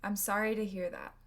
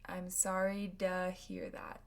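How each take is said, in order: First: Quick with reduced "to"; fast speech. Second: "to" reduced to duh. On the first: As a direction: rush through it naturally. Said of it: "with fast speech in American English". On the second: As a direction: slur "to" into "duh". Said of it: "Sounds almost like a duh". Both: Shown as a demonstration.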